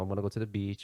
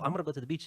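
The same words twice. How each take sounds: First: It is said in a flat monotone. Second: It is said with lively, varied expression. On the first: The speaker calls it wrong. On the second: The speaker calls it right.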